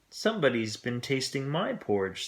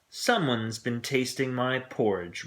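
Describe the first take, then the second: First: It is said in a middle-sized voice. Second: It is said in a great big voice.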